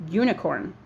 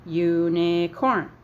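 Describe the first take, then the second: First: Said in the usual way. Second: "Unicorn" very slow, in three beats, u-ni-corn; syllable by syllable. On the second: Shown as a demonstration. Teacher shows the three sounds in Unicorn, syllable by syllable. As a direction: stretch Unicorn out so each syllable can be counted. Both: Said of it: "Three sounds".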